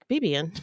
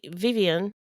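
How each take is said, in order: First: The name begins with a B sound. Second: The name begins with a V sound.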